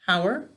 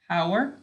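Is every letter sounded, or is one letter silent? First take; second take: every letter; every letter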